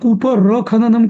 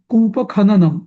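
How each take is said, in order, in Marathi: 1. दोन शब्दांमध्ये एक अतिरिक्त r आवाज येतो. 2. दोन शब्दांमध्ये कोणताही अतिरिक्त आवाज येत नाही. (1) "तुम्ही न कूप र खननम का म्हणताय?" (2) "कूप खननम असा शब्द आहे, र नाहीये"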